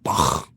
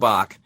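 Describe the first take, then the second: First: The name is said with a heavy German sound. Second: The name is said plainly, without German emphasis. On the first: "in the German realm, they're like Bach, and they really lay into it" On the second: "you nailed it"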